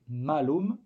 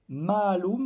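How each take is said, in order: First: The first vowel is short. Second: The first vowel is held long. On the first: It means misfortune or evil. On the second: It means apple.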